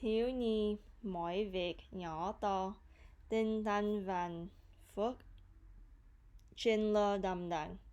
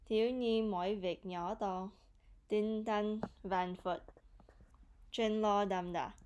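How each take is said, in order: First: The phrase is said a little more slowly. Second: The phrase is said at a normal speed. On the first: "I'll say it a little bit slower" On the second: "so I'll say it again"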